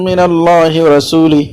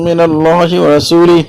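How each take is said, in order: Both takes have the same delivery.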